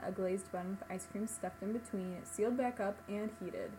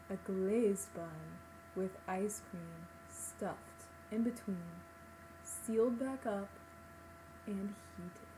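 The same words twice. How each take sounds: First: It is read out quickly. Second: It is read out slowly.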